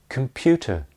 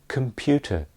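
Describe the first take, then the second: Both takes have the same delivery.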